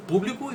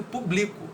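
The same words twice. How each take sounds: First: "público" with PÚ as the strong syllable; stress on first syllable. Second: "publico" with BLI as the strong syllable; stress on middle syllable. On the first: Teacher repeating the contrast for students, "público" stressed on PÚ. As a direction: put the force on PÚ in "público". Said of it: "a gente faz muito mais força na". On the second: Teacher repeating the contrast for students, "publico" stressed on BLI. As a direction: put the force on BLI in "publico". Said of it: "mais força na palavra bli". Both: Shown as a demonstration.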